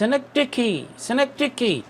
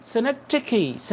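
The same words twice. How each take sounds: First: Quick teacher repetition of synecdoche; model pronunciation at pace. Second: Synecdoche stretched very slowly with a soft d; slow, careful teacher demo of synecdoche; slow model pronunciation. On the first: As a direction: rattle off synecdoche at normal speed. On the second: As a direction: draw out synecdoche for the class. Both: Shown as a demonstration. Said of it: "कि हम इसको पढ़ते कैसे हैं".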